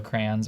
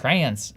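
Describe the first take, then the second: First: "crayons" said "crans" in one nasal syllable, Jersey-style; Jersey accent. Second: "crayons" said in two syllables, "cray-ons"; standard pronunciation. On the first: Real, not acted. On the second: Shown as a demonstration. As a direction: say "crayons" carefully as "cray-unz". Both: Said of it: "that's my Jersey accent coming out".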